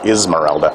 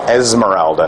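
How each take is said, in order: First: The name begins with an 'ih' vowel. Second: The name begins with an 'eh' vowel. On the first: The speaker calls it wrong. "not Ismeralda" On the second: The speaker calls it right.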